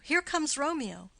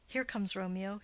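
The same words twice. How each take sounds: First: Higher and louder, announcing his arrival; excited call. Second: Said in the usual way. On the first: Acted. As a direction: call out as Romeo comes into view. Benvolio spots Romeo arriving.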